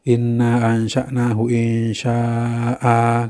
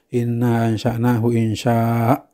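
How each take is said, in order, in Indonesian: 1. Vokal terakhir dari kata terakhir dipanjangkan. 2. Kata terakhir berakhir terpotong pendek tanpa vokal. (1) "kan begitu mestinya, mat iwat" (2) "malah dibaca"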